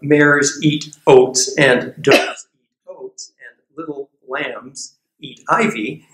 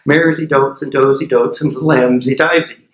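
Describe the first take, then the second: First: It is said at normal speed, clearly. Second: It is said very fast, words jumbled.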